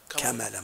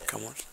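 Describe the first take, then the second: First: The middle consonant has an 'a' vowel. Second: The middle consonant has a 'u' vowel. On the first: The speaker calls it right. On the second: The speaker calls it wrong.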